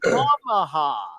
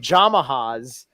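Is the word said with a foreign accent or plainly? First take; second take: plain; accented. First: It starts with a Y sound, plainly. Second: It starts with a J sound, foreign-accented.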